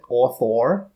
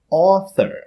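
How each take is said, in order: First: The last syllable has a full or sound. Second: The last syllable has a plain er sound. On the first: The speaker calls it wrong. "We don't say author" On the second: The speaker calls it right. "we pronounce them er"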